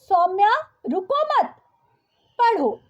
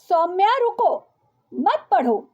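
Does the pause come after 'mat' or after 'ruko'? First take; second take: after mat; after ruko. First: The pause comes right after 'mat'. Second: The pause comes right after 'ruko'. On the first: The listener should not stop but keep reading. The speaker calls it right. "उन्हें वाक्य इस प्रकार कहना चाहिए था" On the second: The listener should stop and not read. The speaker calls it wrong. "वाक्य में विराम के गलत प्रयोग के कारण"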